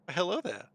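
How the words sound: It is said in a very high voice.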